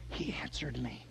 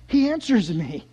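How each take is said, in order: First: Very soft, low murmur; quiet, low wonder; hushed awe. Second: Lifted, full-voiced wonder; astonished declaration; amazed realization. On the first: Acted. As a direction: say it under your breath, barely believing it. Hushed awe, then repeated louder. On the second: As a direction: bring it out aloud as dawning amazement. Repeats line aloud in amazement.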